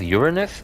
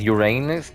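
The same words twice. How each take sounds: First: The name begins with a sound like 'urine'. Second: The name sounds like the words 'your anus'. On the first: It sounds like a bodily fluid. "then you're saying urine" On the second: It sounds like a body part. "you're saying what you're saying"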